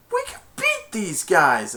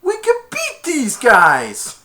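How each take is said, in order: First: Said in the usual way. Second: High, loud and slow rallying line; determined. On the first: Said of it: "He's like". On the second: Retold or imitated. Tad rallying the team, slow, high and loud. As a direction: say it like a gruff hero. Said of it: "Tad said".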